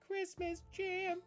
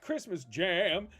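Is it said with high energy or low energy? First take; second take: low energy; high energy. First: It is said low and quiet, without energy. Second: It is said loudly with lots of energy. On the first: The speaker calls it wrong. "he's like so low in his voice" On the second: The speaker calls it right. "you got to say it like that"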